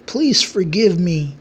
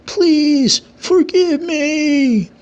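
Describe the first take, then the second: First: A touch of pleading, slow; mild pleading. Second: High, very slow, wailing please forgive me; desperate wailing plea. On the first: Satomu begging the king for mercy, mild pleading. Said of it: "The two are pleading". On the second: Satomu begging the king for mercy, high wailing plea. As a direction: beg for your life, voice climbing high. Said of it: "still pleading to the king". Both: A narrator's reading.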